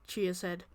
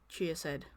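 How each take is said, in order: The two takes are said the same way.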